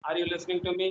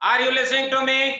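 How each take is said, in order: First: It is said softly, with small amplitude. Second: It is said loudly, with large amplitude. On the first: Less power is transmitted. "amplitude is small" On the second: More power is transmitted, so it travels farther. "that amplitude was more that is why you hear loud"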